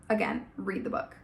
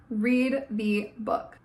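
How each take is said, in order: First: Said in the usual way. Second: Slow, spaced-out command; slow insistence. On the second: Real, not acted. Vlogger urging viewers to read, slow. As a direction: drag out each word as a plea.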